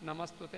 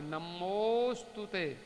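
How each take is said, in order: First: The second vowel is a short 'a'. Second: The second vowel is a long 'o'. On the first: The speaker calls it wrong. "एक मात्रा नम, नमस्तुते ऐसे कह सकते हैं" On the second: The speaker calls it right. "दो मात्रा बोलिए"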